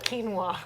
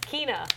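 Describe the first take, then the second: First: The name is said with a w sound. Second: The name is said without a w sound. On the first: The speaker calls it wrong. "not quinoa, like the like the grain" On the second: The speaker calls it right. "I think her name is Kina"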